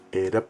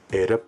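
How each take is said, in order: First: A low tone is followed by a falling tone. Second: The same.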